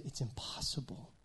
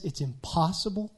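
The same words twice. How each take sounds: First: Whispered, falling on impossible; breathy whisper with "impossible" stressed and falling; hushed emphasis. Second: Said in the usual way. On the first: Shown as a demonstration. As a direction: drop to a whisper on "impossible" to make it land. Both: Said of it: "Not just, it's really hard".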